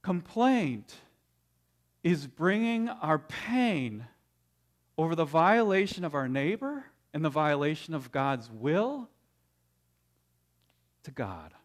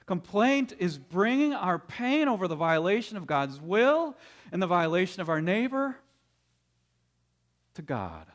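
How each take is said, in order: First: Very slow, each phrase weighed, dropping low on to God; slow definition. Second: Said in the usual way. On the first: Shown as a demonstration. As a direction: lay down the definition word by word. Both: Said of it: "we could define complaint in this way".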